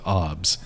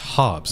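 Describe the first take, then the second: First: The initial H sound is dropped and silent. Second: The initial H sound is clearly pronounced. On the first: The speaker calls it wrong. "not Hobbs" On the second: The speaker calls it right. "It's Hobbs"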